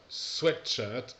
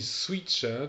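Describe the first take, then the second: First: The first vowel is short, like 'sweat'. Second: The first vowel is long, like 'sweet'. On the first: It means a shirt for sweat. The speaker calls it right. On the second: It means a sugared shirt. The speaker calls it wrong.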